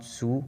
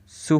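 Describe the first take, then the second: First: सु said as a plain s with short u, no t; सु as simple su, not tsu. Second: सु said as tsu, with a louder ts at the start; सु spoken as Japanese tsu, not su; tsu sound. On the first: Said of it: "not सु". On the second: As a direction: push a firm ts into सु. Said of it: "तो इसकी pronunciation सु". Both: Shown as a demonstration.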